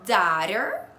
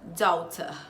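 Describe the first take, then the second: First: It is said with an American accent. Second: It is said with a British accent.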